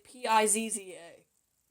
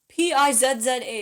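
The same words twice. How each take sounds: First: Z is said the American way, as zee. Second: Z is said the Canadian way, as zed.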